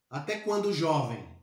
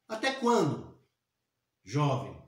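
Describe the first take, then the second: First: There is no pause before jovem. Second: There is a pause before jovem.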